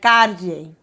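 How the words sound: The double L sounds like a d-j blend. The speaker is from Venezuela or Colombia. "In Venezuela or Colombia ... a stronger Y sound that has like a D and a J"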